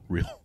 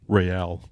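First: It is said the English way, like 'reel'. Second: It is said the Spanish way, re-AL. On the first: The speaker calls it wrong. "not real" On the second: The speaker calls it right. "Real, not real"

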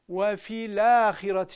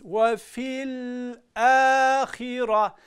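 First: The l is followed by an a vowel. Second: The l is held without a following vowel. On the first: The speaker calls it wrong. "şeklinde lama üstün vermiş oluyoruz" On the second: The speaker calls it right. "İshar edeceğiz"

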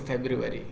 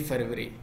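First: It is said with an English pronunciation. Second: It is said with an Urdu pronunciation. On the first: This is the form used when speaking English. "English में बात कर रहे होते हैं तो फरवरी" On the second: This is the form used when speaking Urdu. "हम उर्दू में बात करते हैं तो जनवरी फरवरी"

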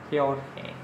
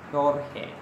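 First: The name begins with an h sound. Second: The same.

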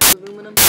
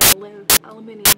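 First: The word is said with four syllables. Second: The word is said with five syllables. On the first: It is the speaker's own usual form. "But I do say aluminum" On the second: It is the form picked up from someone else, used when reading. "I end up saying aluminium"

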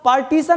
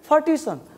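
First: The first sound is a plain, unaspirated p. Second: The first sound is a breathy p, near f. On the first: The speaker calls it wrong. "पार्टीशन नहीं" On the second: The speaker calls it right. "प और फ के बीच का sound"

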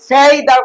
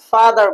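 First: The first vowel sounds like 'ay' in day. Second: The first vowel sounds like 'ah' in car. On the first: The speaker calls it wrong. "ফেইদার বললে হবে না" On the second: The speaker calls it right. "আপনাকে ফাদার বলতে হবে"

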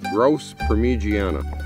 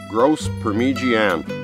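First: The word ends with a final 'a' vowel. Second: The word ends without a final vowel. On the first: The speaker calls it right. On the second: The speaker calls it wrong.

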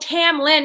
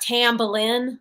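First: The name has no b sound before the l. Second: The name has a b sound before the l. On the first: The speaker calls it right. "No, Tamlin" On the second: The speaker calls it wrong. "not Tamblin"

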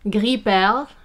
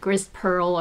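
First: The second word is said with French vowels. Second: The second word is said like English pearl. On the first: The speaker calls it right. "I say it in French" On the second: The speaker calls it wrong. "some people mispronounce it"

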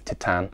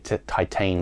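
First: The name is said with French-style vowels. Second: The name is said with English-style vowels. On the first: The speaker calls it right. "the actual pronunciation of this film is Titane" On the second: The speaker calls it wrong. "I keep trying to say Titane"

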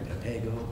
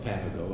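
First: The stress is on the second syllable. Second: The stress is not on the second syllable. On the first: "when in doubt, it's the second syllable" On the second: "I thought Papago"

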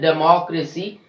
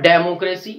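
First: The stress is on the second syllable. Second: The stress is not on the second syllable. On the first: The speaker calls it right. "We are stressing on the third last syllable in this word" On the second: The speaker calls it wrong. "Not democracy"

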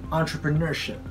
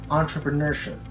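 No difference in how they are said.

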